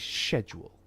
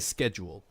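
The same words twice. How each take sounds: First: The word is said in an RP British accent. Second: The word is said in a non-RP accent. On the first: "someone who would have done R P would say schedule" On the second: "I say schedule"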